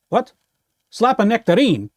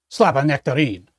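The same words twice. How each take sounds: First: Puzzled, rising disbelief; confused question. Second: Musing repeat. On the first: On the phone, baffled by the caller's message. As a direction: repeat the odd words back in confusion. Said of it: "That doesn't make any sense". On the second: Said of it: "What on earth does that mean?". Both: Pretend.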